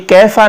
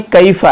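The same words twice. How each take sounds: First: कैफा with a single "e" vowel, keh-fa; mispronunciation demo. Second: कैफा with an "ay-ee" glide, kay-fa; correct Quranic pronunciation. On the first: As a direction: leave the glide out of कैफा. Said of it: "तो ये कैफा नहीं है". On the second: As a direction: open a gliding to i in कैफा. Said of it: "कैफा है". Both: Shown as a demonstration.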